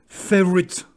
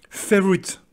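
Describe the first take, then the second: Both takes have the same delivery.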